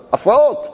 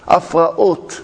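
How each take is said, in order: First: הפרעות pitched high, lifted at the end; exclaimed key word. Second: הפרעות drawn out as af-ra-ot; syllable-by-syllable. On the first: Teacher flags הפרעות for listeners, high exclamation with a rising end. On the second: Teacher repeats הפרעות for listeners, measured syllable by syllable. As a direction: spell out הפרעות in separate syllables at usual pitch. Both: Shown as a demonstration.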